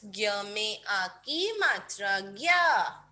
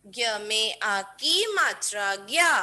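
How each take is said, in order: First: Slow, careful dictation of the syllable. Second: A quicker, firmer repeat of the syllable; quicker dictation. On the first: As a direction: draw out each part for kids. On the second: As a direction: say it once more, briskly. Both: Shown as a demonstration. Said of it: "बोल बोल के लिखेंगे kids".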